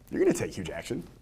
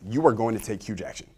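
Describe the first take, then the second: First: It is said with an assumptive, implied-agreement tone. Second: It is said as a plain, flat statement. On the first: Agreement is taken for granted. "I want to make it an assumptive tone" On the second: It simply states a fact. "That is the declarative statement"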